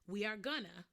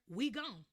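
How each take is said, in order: First: Going to is merged into one short word. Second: Are drops and going to shrinks to gon. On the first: "we sometimes say we are gonna" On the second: "or we gon'"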